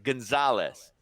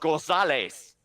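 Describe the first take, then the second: First: The name is said with American English sounds. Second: The name is said with Spanish sounds. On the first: The name is adapted to English. The speaker calls it wrong. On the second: The name keeps its original form. The speaker calls it right. "No, it's Gonzalez"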